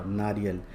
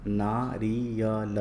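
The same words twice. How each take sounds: First: Said in the usual way. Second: Slow ना-री-य-ल; syllable by syllable. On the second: Shown as a demonstration. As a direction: read नारियल out in separate syllables. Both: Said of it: "पहले पढ़ लेते हैं".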